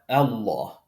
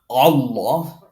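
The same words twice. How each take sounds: First: The opening glottal stop sounds light and plain. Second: The opening glottal stop sounds heavy and emphatic. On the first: The speaker calls it right. "That hamza is light" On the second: The speaker calls it wrong. "not Allah"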